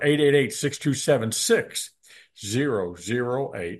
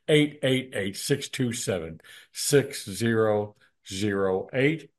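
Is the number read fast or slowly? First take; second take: fast; slowly. First: The number is read at a faster pace. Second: The number is read at a slower pace.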